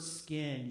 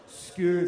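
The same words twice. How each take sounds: First: Said in the usual way. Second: "Skin" much louder and stretched; dramatic slow-motion. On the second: Retold or imitated. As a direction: land "Skin" like a doom verdict in slow motion. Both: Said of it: "Like, slow motion".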